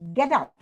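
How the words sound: It is said as a firm command. The listener is ordered to leave. "It's a calling, it's a command"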